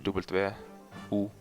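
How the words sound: The letter names are said the Norwegian way. "we pronounce it differently in Norwegian. We say"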